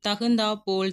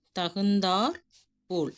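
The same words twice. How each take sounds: First: தகுந்தா போல் with the r left off தகுந்தா; wrong form. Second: தகுந்தார் closed on a clear r, pause before போல்; correct form. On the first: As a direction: end தகுந்தா on an open vowel before போல். (ரகரம் இல்லாமல் தகுந்தா போல்) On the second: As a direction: split தகுந்தார் and போல், sounding the final r. (ரகர ஒலியுடன் தகுந்தார், பிறகு போல்) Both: Shown as a demonstration. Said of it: "அப்படிலாம் எழுதக்கூடாது".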